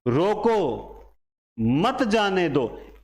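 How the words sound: The pause comes right after रोको.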